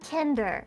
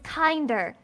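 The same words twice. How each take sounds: First: It is said with a German-style short 'i' vowel. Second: It is said with the English 'kind' vowel. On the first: It sounds like the German word for children. The speaker calls it wrong. "not kinder" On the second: It means more kind. The speaker calls it right. "the word you're looking for is kinder"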